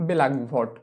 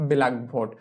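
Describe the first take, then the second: No difference in how they are said.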